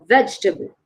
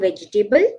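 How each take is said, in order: First: The second E sound is silent. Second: The second E sound is pronounced. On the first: The speaker calls it right. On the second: The speaker calls it wrong.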